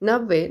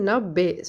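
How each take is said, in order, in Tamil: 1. நடுவில் உள்ள எழுத்து மெல்லிய v ஒலி. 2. நடுவில் உள்ள எழுத்து p ஒலி. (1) "நவ்வேன்றது நப்பே சொல்லணும்" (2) "பி அதாவது நப் இப்பு வரணும்"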